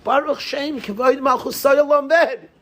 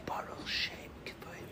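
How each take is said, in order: First: Proclaimed high and loud; loud and proud. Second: Unvoiced whisper of the blessing. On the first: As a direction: call the blessing out with pride. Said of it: "Say it loud, say it proud". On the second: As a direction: hush it like a secret prayer. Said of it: "Why don't we whisper it?". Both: Shown as a demonstration.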